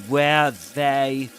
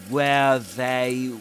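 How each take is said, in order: No difference in how they are said.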